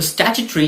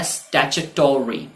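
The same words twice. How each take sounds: First: स्टैट्यूटरी as "STATCH-tree"; British स्टैट्यूटरी with the o dropped; UK pronunciation. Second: स्टैट्यूटरी as "statch-uh-TAW-ree"; American स्टैट्यूटरी with a full o; US pronunciation. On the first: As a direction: end स्टैट्यूटरी in a quick "tree". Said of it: "इसका UK pronunciation है". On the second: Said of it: "US pronunciation इसी word का होता है". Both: Shown as a demonstration.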